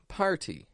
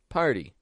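First: The T is a crisp, fully released stop. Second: The T is a quick flap after R. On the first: "they'll pronounce the T as a true T" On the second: "we give it a flap T sound with an R before it"

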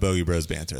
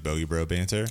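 First: An S sound is pronounced at the end of Bros. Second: No S sound is pronounced at the end of Bro. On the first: "I'm trying to really like pronounce the S" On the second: "We always just say Bogey Bro banter"

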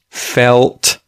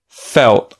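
First: The L and T are both pronounced clearly. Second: The L is dark and the T is stopped. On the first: "you would say the L and the T clearly" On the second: "changes the sounds of the L and the T"

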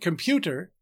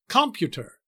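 First: The stress is on the middle syllable. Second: The stress is not on the middle syllable. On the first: The speaker calls it right. "the heavier stress is on the middle syllable" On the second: The speaker calls it wrong. "We don't say computer or computer"

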